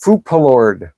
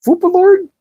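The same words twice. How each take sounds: First: Said in the usual way. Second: "Foopalord?" squeaked much higher in disbelief; "Foopalord" in a high, mocking, rising squeak; incredulous question. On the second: Shown as a demonstration. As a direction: react to "Foopalord" like it can't be real. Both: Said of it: "This is".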